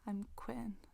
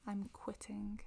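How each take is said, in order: First: The middle T is dropped. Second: The middle T is clearly pronounced.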